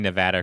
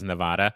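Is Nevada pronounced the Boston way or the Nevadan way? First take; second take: Nevadan; Boston. First: Nevada is pronounced the way Nevadans say it. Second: Nevada is pronounced the way Bostonians say it. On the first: The speaker calls it right. "I practice saying Nevada correctly" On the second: The speaker calls it wrong. "everyone around here in Boston says Nevada"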